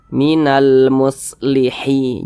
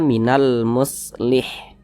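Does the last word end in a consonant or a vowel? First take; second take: vowel; consonant. First: The last word ends with an added vowel. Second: The last word ends on a bare consonant. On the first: The speaker calls it wrong. "Jangan dibaca minal muslihi. Jangan" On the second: The speaker calls it right. "Huruf H kita sukunkan"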